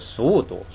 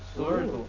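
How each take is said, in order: First: The middle r-like sound is dropped. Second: The middle r-like sound is pronounced.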